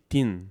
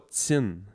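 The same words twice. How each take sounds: First: The t is said as a plain t sound. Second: The t is said as a hissing ts sound. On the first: The speaker calls it right. "C'est tin" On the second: The speaker calls it wrong. "il n'y a pas un T S I N E. C'est pas tin"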